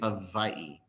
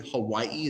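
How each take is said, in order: First: The middle consonant is a V sound. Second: The middle consonant is a W sound. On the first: "they say Hawaii with a V" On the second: "they don't say Hawaii"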